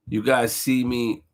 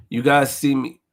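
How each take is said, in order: Both takes have the same delivery.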